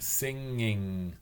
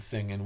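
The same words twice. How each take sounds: First: The ending is pronounced 'ing' with a final g. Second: The ending is pronounced 'in' without a final g. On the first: This is the form used to fit in elsewhere. "I would stand in front of the mirror and say... ing, ing, ing" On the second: This is the speaker's home upper Midwest speech. "upper Midwest, It's an in, in, it's not ing"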